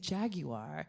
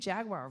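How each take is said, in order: First: Jaguar is said with a British pronunciation. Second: Jaguar is said with an American pronunciation. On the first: This is how the locals say it. The speaker calls it right. "of course they say Jaguar" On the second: This is the speaker's own usual way of saying it. The speaker calls it wrong. "I'm saying Jaguar wrong"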